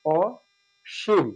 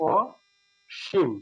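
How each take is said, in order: First: অসীম stretched very slowly with open অ; slow demo pronunciation. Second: অসীম drawn out very slowly, first vowel rounded; slow demo pronunciation. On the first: Teacher showing অসীম slowly to the class. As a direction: draw out অসীম with a clear অ sound. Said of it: "হীন বোঝায় তো সেক্ষেত্রে আছে". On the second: Teacher showing the second reading of অসীম slowly. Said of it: "আরেকটা হতে পারে". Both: Shown as a demonstration.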